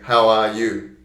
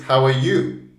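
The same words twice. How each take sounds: First: Every word is said fully with equal strength. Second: How are is weak; you is stressed. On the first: The speaker calls it wrong. "we don't usually say" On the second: The speaker calls it right. "usually it's"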